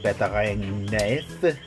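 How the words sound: It is said in a mock French accent.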